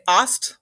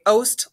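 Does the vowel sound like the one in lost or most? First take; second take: lost; most. First: The vowel sounds like the one in lost. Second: The vowel sounds like the one in most. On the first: "like lost" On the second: "like most"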